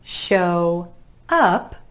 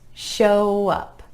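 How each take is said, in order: First: The two words are said separately. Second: The words are joined by a gentle w glide.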